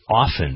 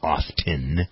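First: The T sound is left out. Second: The T sound is clearly pronounced. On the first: The speaker calls it right. "The T is silent" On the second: The speaker calls it wrong. "it isn't often"

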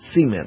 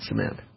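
First: It is said with a Southern regional pronunciation. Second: It is said with a non-Southern regional pronunciation. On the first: "In the South, it's cement" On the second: "not cement"

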